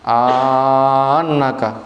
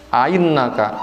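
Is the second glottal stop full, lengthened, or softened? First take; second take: lengthened; softened. First: A long vowel is inserted between the glottal stops. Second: The second glottal stop is softened and eased. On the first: "memasukkan alif bainahuma di antara keduanya" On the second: "membaca mudah hamzah yang kedua"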